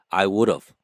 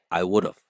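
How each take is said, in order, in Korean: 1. 모든 단어를 빠짐없이 분명하게 발음합니다. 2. have는 of처럼 들리는 짧은 소리로 줄어듭니다.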